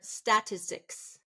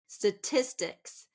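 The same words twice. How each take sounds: First: The stress is on the first syllable. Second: The stress is not on the first syllable.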